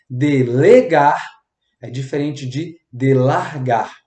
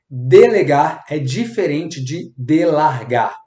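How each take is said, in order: First: The sentence is said slowly and clearly. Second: The sentence is said quickly. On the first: The speaker calls it right. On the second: The speaker calls it wrong.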